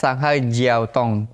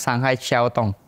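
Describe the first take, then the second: First: The second word starts with a 'j' sound. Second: The second word starts with an 'sh'-like sound. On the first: This is how the name is written. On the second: This is how the name is actually read.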